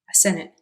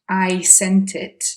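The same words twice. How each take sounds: First: I becomes ah and the T sounds drop. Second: Each word is pronounced fully, with clear T sounds. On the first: "he reduces I to ah ... the T sounds are dropped both on sent and it" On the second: "instead of saying I, I sent it"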